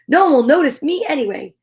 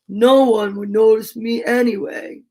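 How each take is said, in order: First: It is read in a plain narrating voice. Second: It is said in a slow, gloomy character voice.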